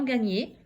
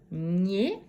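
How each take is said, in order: First: Said in the usual way. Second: "Gagner" split as ga, long pause, gner; syllable by syllable. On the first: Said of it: "combien de syllabes?". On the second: Shown as a demonstration. Teacher counting syllables, "Gagner" in two drawn-out parts. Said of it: "Deux syllabes".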